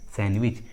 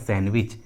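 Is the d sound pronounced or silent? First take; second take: silent; silent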